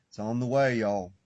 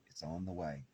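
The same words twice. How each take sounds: First: Louder, pushing it out to the listeners; a raised, insistent reassurance; emphatic promise. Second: Softer and lower, almost to herself; a quiet, lowered repeat of the promise; hushed echo. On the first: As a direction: announce it firmly, voice raised. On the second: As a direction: let it fall away gently. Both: Real, not acted. Repeats promise, loud then hushed.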